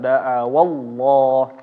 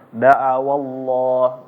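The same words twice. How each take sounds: First: The 'wa' syllable gets extra stress. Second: The 'wa' syllable gets no extra stress. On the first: The speaker calls it wrong. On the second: The speaker calls it right. "dibacanya tanpa naber"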